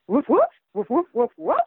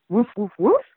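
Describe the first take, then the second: First: Higher, louder yappy woofs; eager dog barking. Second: Barked woofs, a bit louder; dog barking. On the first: Dog pleading with Lady to go to school, higher excited yapping. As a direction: yap them out like an excited pup. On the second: Dog begging to go to school, playful barking. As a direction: bark the words like the dog Bow Wow. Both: Acted. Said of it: "says Bow Wow".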